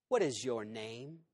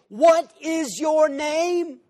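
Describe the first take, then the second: First: It is said calmly, without shouting. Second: It is shouted loudly.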